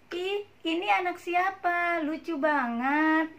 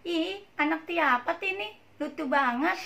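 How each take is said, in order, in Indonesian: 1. Diucapkan dengan artikulasi yang jelas dan normal. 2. Diucapkan dengan cadel, gaya bicara bayi yang menggemaskan. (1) "Ajarkan sesuai dengan artikulasi yang benar" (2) "suka dicadel-cadelin, suka dilucu-lucuin. Misalnya gini"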